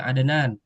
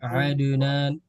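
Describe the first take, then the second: First: The d is released with a light, natural echo. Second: The d is followed by a full added vowel. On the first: The speaker calls it right. "di kol-kolah secara natural aja" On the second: The speaker calls it wrong. "Tidak mesti harus adunan"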